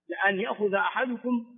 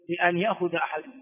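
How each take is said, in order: First: The first syllable is said with an a vowel. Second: The first syllable is said with an i vowel. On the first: The speaker calls it right. "الفتح" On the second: The speaker calls it wrong. "هذا غلط"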